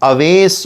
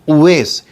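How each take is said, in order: First: The name begins with a short 'a' sound. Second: The name begins with a 'u' sound. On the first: The speaker calls it wrong. "बहुत सारे लोग उसको गलत बोलते हैं" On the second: The speaker calls it right. "ये सही है"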